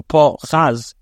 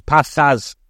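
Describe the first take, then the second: First: "Pachaz" drawn out slowly as "po-CHAZ"; kometz-patach pronunciation. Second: "Pachaz" said at usual pace; vowel demonstration. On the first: Teacher showing past-tense vowels, "Pachaz" slow with latter-syllable stress. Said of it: "Half of the Kometz and half of the Patach". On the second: Teacher reading how the verb would be vowelized, "Pachaz" at usual pace. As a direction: sound out the vowels of "Pachaz" in passing. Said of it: "it would be vowelized". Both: Shown as a demonstration.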